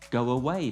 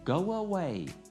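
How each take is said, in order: First: The two words are said without a linking sound. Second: A w sound links the two words together.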